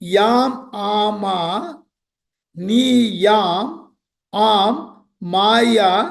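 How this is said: The syllables are grouped into separate words. It is split so that it carries meaning. "பொருள் நோக்குல syntax பண்ணும்போது எப்படி பிரிக்கலன்னா"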